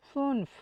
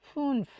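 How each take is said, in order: Both takes have the same delivery.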